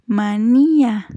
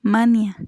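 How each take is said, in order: First: "manía" slowly, with a long stressed í; "manía" leaning on NÍ, the a separate; stressed í, hiatus. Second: "mania" as MA-nia, stress on the first a; "mania" stressed on MA, ending in a short nia; wrong stress, diphthong. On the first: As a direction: say "manía" drawn out as ma-NÍ-a. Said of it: "hiatos acentuales". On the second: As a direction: say "mania" with ia glided and unstressed. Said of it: "ni decimos". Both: Shown as a demonstration.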